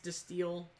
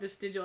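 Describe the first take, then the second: First: The name is said without a J sound. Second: The name is said with a J-like sound. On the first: "I think it's Distill. You don't pronounce the J" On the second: "I call it Distigal"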